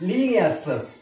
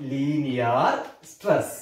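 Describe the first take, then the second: First: Said in the usual way. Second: Slow repeat. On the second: Shown as a demonstration. Teacher writing the term on the board, slow low repeat.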